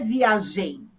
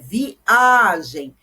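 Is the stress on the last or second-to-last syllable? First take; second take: last; second-to-last. First: The stress falls on the last syllable. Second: The stress falls on the second-to-last syllable. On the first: The speaker calls it wrong. "não é viagem, não é o gen" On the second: The speaker calls it right. "é viagem. Então, é uma palavra paroxítona"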